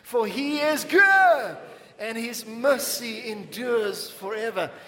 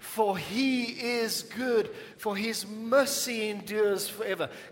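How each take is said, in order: First: It is said with more passion and energy. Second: It is said with calmer, ordinary energy.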